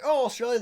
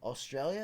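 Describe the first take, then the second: First: High, loud exclamation; mock delighted recognition. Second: Rising tune on "Australia"; tentative question. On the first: Retelling guessing a customer's accent, loud exclaimed guess. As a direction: blurt out the guess brightly and loudly. Retold wrong guess at work. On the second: Retold or imitated. Guessing a customer's country, tentative rising "Australia". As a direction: say "Australia" as an unsure guess, lifting at the end.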